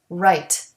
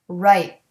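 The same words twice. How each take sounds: First: The final T is released with a puff of air. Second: The final T is stopped without a puff. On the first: "A regular T has a puff of air" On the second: "The stopped T doesn't have the puff of air"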